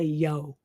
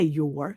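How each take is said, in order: First: The word ends in a plain o vowel. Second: The word ends with an r sound. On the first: The speaker calls it right. "you say yo" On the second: The speaker calls it wrong. "You don't say your"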